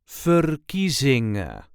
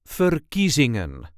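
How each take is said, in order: First: The final n sound is left off. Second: The final n sound is clearly pronounced. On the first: "Often we do not pronounce the N at the end of the word" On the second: "but if you want to, it will sound like this"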